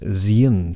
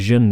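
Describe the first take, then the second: First: The ending is split into 'zee-en'. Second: The ending is a single 'zhun' syllable. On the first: The speaker calls it wrong. "he says zien" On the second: The speaker calls it right. "it should be jeune"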